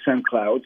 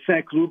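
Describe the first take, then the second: First: It is said with an American pronunciation. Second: It is said with a French pronunciation.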